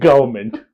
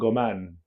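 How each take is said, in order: First: The word is said in full, all syllables. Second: The word is shortened to two clipped syllables.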